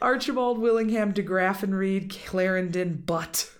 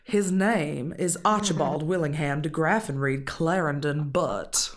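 First: It is said in his ordinary accent. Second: It is said in a deep Southern accent.

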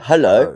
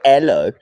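First: The word begins with a clear h sound. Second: The word begins without any h sound. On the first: The speaker calls it right. "I do" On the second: The speaker calls it wrong. "I don't go hello"

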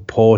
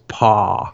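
First: The word is said with a plain vowel. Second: The word is said with a Southern drawl. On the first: "So on the album" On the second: "add this sort of southern inflection"

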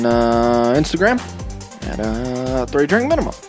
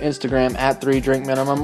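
First: Spoken in an imitated, put-on impression voice. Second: Spoken in the speaker's own natural voice.

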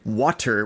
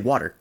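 First: The middle sound is a crisp, hard T. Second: The middle sound is a soft, D-like tap. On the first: "doesn't do like a hard T on all of their words. So like, we don't say water" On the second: "We put a D on it"

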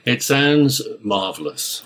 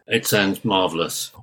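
First: It sounds enthusiastic and full of conviction. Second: It sounds flat and half-hearted.

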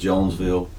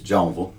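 First: The s sound in the middle is pronounced. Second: The s sound in the middle is silent. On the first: The speaker calls it wrong. "I completely just said it incorrectly" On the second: The speaker calls it right. "The S is silent"

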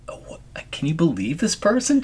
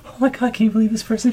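First: It sounds scornful, as if she is crazy. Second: It sounds admiring, as if she is amazing.

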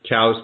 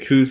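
First: The vowel sounds like 'ow' in cow. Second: The vowel sounds like 'oo' in moo. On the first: "Cows is correct" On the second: "I say coos"

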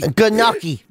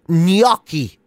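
First: The word starts with a hard g sound. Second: The word starts with a ny sound.

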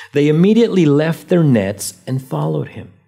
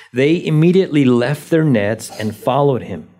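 Both takes have the same delivery.

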